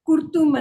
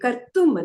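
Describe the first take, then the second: First: The first vowel is 'u', as kurtum. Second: The first vowel is 'a', as kartum. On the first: The speaker calls it wrong. "ನೀವು ಕುರ್ತುಂ ಅಂದ್ರಿ" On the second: The speaker calls it right. "ಕರ್ತುಂ ಅದು"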